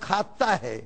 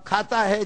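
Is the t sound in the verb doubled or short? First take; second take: doubled; short. First: The t sound is doubled and held longer. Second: The t sound is short and single.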